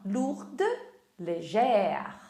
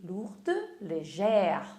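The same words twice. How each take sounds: First: Said in the usual way. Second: "légère" said very slowly, the accent shifted onto the final "è"; slow, careful teacher model of "lourde, légère"; slow French demo. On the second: Shown as a demonstration. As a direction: spell out "légère" slowly with the open è sound. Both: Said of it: "Muda também o acento no légère".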